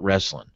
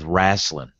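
First: It is said as standard 'wrestling'. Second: It is said as a drawled 'rasslin'. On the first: It is the standard form. The speaker calls it wrong. "not wrestling" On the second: It is the Southern folksy form. The speaker calls it right. "You got to double R that with wrestling"

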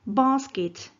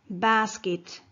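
First: It is said with a British English accent. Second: It is said with an American English accent. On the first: "British English" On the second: "American English"

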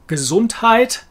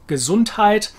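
No difference in how they are said.

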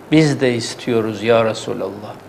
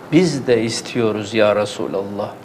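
The two takes are said the same way.

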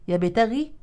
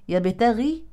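No difference in how they are said.

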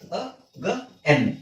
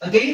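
First: The second syllable has an 'e' vowel. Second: The second syllable has an 'ai' vowel. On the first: The speaker calls it right. "ಈ ಗೆ ಐಕಾರ ಬಿಟ್ಬಿಡಿ" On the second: The speaker calls it wrong. "ಅಗೈನ್ ಅಗೈನ್ ಅಲ್ಲ"

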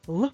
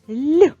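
First: The consonant is pronounced hard, not softened. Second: The consonant is pronounced soft, palatalized.

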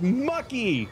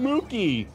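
First: The first vowel is an 'uh' sound. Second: The first vowel is a long 'oo' sound. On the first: The speaker calls it right. "it's Mucky. It's like yucky" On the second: The speaker calls it wrong. "I keep calling him Mookie, but it's not"

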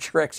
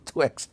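First: The word starts with a clear 'tr' sound. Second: The word starts with a 'tw' sound. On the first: "instead of saying tricks" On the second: "he said twicks"

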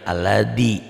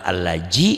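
First: The middle consonant sounds like a hard d. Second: The middle consonant sounds like a soft j. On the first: It is how Sundanese speakers say it. "jangan aladi" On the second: It is how Betawi speakers say it. "Jangan alaji"

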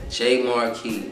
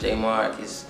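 First: The name ends in a 'key' sound. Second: The name does not end in a 'key' sound. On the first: The speaker calls it right. "that's J-M-A-R-K-E-Y, like key to the car" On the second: The speaker calls it wrong. "it's not Jmarquis"

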